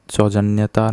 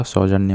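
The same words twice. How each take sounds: First: सौजन्यता with an added final 'taa'; सौजन्यता, four parts ending in 'taa'; wrong form. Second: सौजन्य ending on 'nya', no 'taa'; सौजन्य without any added suffix; correct form. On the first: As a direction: say the mistaken सौजन्यता, tacking 'taa' on the end. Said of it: "सौजन्यता नहीं होता". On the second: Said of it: "सौजन्य होता है". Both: Shown as a demonstration.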